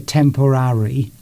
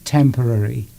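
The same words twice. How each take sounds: First: Every syllable is pronounced fully and distinctly. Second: The last syllable fades away softly. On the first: The speaker calls it wrong. "You don't go temporary" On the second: The speaker calls it right. "it's temporary. And you sort of almost sort of fade it out"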